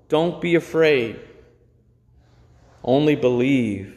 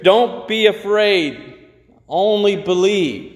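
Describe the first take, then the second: First: Calm, gentle comfort; reassuring. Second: Higher, slow and proclaimed; proclaimed motto. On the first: Acted. Jesus comforting the grieving synagogue leader, calm and reassuring. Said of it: "powerful and reassuring statement". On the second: Shown as a demonstration. Preacher proclaiming the phrase for the church wall, slow and raised. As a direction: announce "Don't" as a banner for the church. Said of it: "put above our church".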